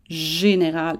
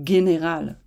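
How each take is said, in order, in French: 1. Le mot commence par un son j doux. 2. Le mot commence par un son g dur. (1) "il faut dire général" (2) "et non général"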